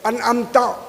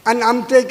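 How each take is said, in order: First: The word ends with an a vowel. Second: The word ends with an e vowel. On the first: The blessing is attributed to God. The speaker calls it right. "ज़बर को अनअमता" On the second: The meaning changes into unbelief. The speaker calls it wrong. "अनअमते कहें तो आदमी काफिर हो जाता है"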